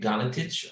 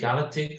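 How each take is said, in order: First: The surname is said the original Croatian way. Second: The surname is said the adapted English way. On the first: The name's original pronunciation. "originally it's supposed to be Galatic" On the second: An accepted everyday way of saying the name. "you can say Galactic"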